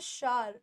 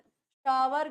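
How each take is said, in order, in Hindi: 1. 'shower' को एक अक्षर में बोला जाता है, shaar। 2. 'shower' को दो अक्षरों में बोला जाता है, sha-war। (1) "हम लेते हैं शार" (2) "शावर गलत हो जाएगा"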